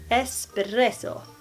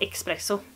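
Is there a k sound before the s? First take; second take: no; yes. First: No k sound comes before the s. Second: A k sound comes before the s. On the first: The speaker calls it right. "Inte X" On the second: The speaker calls it wrong. "Det finns ingenting som heter espresso"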